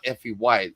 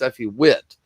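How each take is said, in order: First: The surname has a long 'i' like 'white'. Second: The surname has a short 'i' like 'wit'. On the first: The speaker calls it wrong. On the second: The speaker calls it right. "It's Effie Witt, right?"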